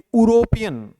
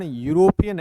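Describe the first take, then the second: First: The word begins with a plain vowel sound. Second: The word begins with a Y sound. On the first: The speaker calls it wrong. "न कि यूरोपियन" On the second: The speaker calls it right. "उसका उच्चारण यूरोपियन है"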